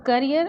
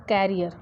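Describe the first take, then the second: First: करियर with short first vowel, kuh-ree-er; career said right. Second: कैरियर with an open kai sound, kai-ree-er; carrier said clearly. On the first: Teacher saying the word for her students, करियर with a short first vowel. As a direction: stress करियर as kuh-ree-er, not kai. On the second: Teacher contrasting the second word, कैरियर with an open kai. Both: Shown as a demonstration. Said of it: "हमारा next आता है".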